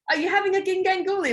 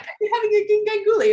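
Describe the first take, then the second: First: High, quick and grinning; the instructor grinning as he teases, a high quick call; smiling Ant voice. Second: High, loud and quick, playful; the instructor teasing the joker, a high, fast playful call; teasing Ant voice. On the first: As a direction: say it with a smile. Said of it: "Like, smiling". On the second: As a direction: tease it out fast and grinning. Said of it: "The way it came across was like". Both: Retold or imitated.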